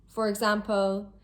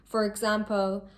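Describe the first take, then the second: No difference in how they are said.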